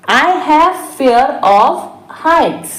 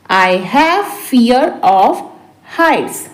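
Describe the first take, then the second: First: Said in the usual way. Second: Deliberate, for learners; slow repeat. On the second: Shown as a demonstration. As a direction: pause before the last word. Teacher repeats translation word by word. (धीरे-धीरे, रुककर)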